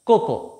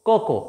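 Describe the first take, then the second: No difference in how they are said.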